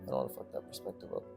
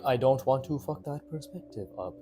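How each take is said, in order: First: The words are run together and unclear. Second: Each word is articulated clearly and distinctly. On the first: The speaker calls it wrong. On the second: The speaker calls it right.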